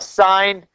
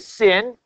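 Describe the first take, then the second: First: The vowel is long, like the word sign. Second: The vowel is short, like the word sin. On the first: The speaker calls it right. "Sine, S-I-N, okay?" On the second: The speaker calls it wrong. "Don't say sin"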